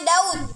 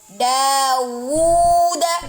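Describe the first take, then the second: First: The vowels run together without a clear w. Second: A clear w sound separates the vowels. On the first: The speaker calls it wrong. "jangan Daud" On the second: The speaker calls it right. "berikan dulu syafatain pada waw"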